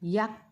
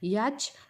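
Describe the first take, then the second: First: The word ends with a kt sound. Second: The word ends with a ch sound. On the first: "याच किंवा याक्ट म्हणायचं नाही" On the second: "याच किंवा याक्ट म्हणायचं नाही"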